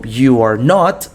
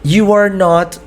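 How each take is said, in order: First: Each word drawn out for learners; careful slow demo of the English; slow model phrase. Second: Said in the usual way. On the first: Shown as a demonstration. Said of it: "you are not" demo". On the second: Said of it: "You are not" demo".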